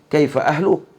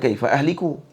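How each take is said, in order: First: The vowel after 'ahl' is a u sound. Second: The vowel after 'ahl' is an i sound. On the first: It asks how the listener's family is. The speaker calls it right. "Sepatutnya dhammah kalam" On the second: It asks how the speaker will perish. The speaker calls it wrong. "Bukan kaifa ahliku. Jadi baca tak betul"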